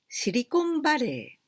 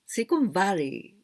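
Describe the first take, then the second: First: It is said with Japanese loanword sounds. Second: It is said with English sounds, including a clear L. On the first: This is how Japanese speakers normally say it. "We say Silicon Valley. This is our way of pronunciation" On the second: Japanese speakers do not normally say it this way. "We don't say like this"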